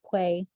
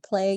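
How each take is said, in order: First: The 'l' is replaced by a 'w' glide. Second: The word starts with a clear 'pl' sound. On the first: "you say play" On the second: "Instead of saying play"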